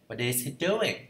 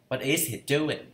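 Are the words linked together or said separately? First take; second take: linked; linked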